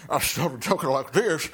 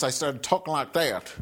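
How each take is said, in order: First: Put-on preacher's cadence, words stretched out; mock preacher. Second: Said in the usual way. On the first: Shown as a demonstration. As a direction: slip into a hammed-up revival preacher voice.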